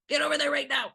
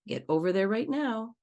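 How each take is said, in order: First: The voice sounds harsh and commanding. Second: The voice sounds somewhat stern but not harsh. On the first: "we're jumping on the red circle or the red stripe" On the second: "Maybe a yellow tone of voice"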